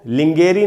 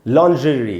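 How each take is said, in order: First: It begins with 'ling' and a hard g. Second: It begins with 'lon' and a soft zh. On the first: The speaker calls it wrong. "इसको लिंगेरी नहीं पढ़ना है दोस्तों" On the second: The speaker calls it right. "लॉन्जरी इस प्रकार से पढ़ेंगे"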